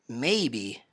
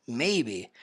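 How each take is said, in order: The two takes are said the same way.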